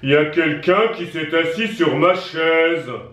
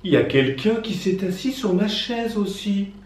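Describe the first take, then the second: First: It is said in a big deep voice. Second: It is said in a soft gentle voice.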